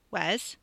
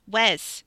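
First: Said in the usual way. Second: Sharp, louder call of a name; urgent, raised-voice summons; insistent call. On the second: A narrator's reading. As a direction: call out to get his attention. Second, insistent call for attention.

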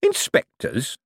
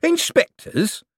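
First: "Inspectors" drawn out, turned over like a candy; savouring the word. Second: "Inspectors" very high and slow, as a query; savouring, questioning. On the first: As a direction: roll "Inspectors" round the mouth, moderately raised pitch. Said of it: "turning the word over in his mouth like a candy". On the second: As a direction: stretch "Inspectors" out in high-pitched wonder. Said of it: "said Mister Shady again". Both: A narrator's reading.

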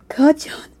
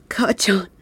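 First: High, rising tearful call; calling out to him through tears; grieving cry. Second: Barely able to say it; broken whisper. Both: Acted. Grieving over the body.

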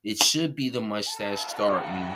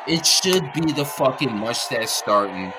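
First: Said in the usual way. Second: Angry outburst, louder and higher; louder angry repeat. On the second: Real, not acted. Fed up with the team owner, louder angry repeat. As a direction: hammer the point home, raised and heated. Ranting about the Indy quarterback.

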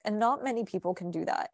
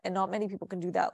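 First: Said in the usual way. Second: Fast throwaway restatement; quick rushed repeat. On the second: Real, not acted. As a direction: rattle off 'And not many people can do that,' fast. Repeats the point, hurried.

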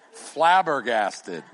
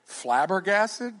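First: "Flabbergasted." slow and louder with a firm falling finish; declared. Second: "Flabbergasted?" drawn out slowly with a rising, asking tune; questioning tune. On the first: Pastor teasing a young man about his lingo, slow emphatic fall. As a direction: land "Flabbergasted." like the final answer. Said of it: "help him a little bit with his lingo". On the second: Pastor groping for a word for the congregation, slow rising question. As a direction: try "Flabbergasted?" as a tentative guess. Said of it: "You'd be what?". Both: Shown as a demonstration.

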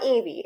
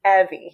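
First: "Evie" said EE-vee, long ee first; EE-vee pronunciation. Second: "Evie" said EH-vee, short e first; EH-vee pronunciation. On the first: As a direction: say "Evie" starting like "eve". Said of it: "very clear to make sure it's not". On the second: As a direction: say "Evie" to rhyme with "Chevy". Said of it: "make sure it's not Evie". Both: Shown as a demonstration.

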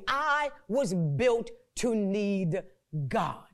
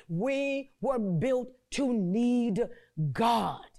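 First: Slow and deliberate, dropping low on God; slow call for repetition. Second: Each word laid down slowly; slow emphatic. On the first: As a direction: lead the crowd word by word. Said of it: "Say it with me". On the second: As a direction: spell it out slowly so they can repeat it. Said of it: "I want you to repeat that after me". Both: Shown as a demonstration.

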